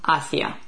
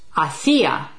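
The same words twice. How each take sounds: First: The stress is on the first syllable. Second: The stress is on the second syllable. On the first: It means towards. "this one without an accent, means towards" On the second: It means was doing or was making. "this one has an accent over the I"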